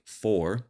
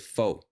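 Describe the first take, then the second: First: The final R sound is clearly pronounced. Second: The final R sound is dropped. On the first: "When I say for" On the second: "a Southern person might say fo"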